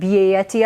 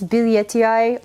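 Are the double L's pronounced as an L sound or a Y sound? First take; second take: Y sound; L sound. First: The double L is said as a Y sound. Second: The double L is said as an L sound. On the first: "the L's do the like French Spanish thing" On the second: "I think it's Billiettii"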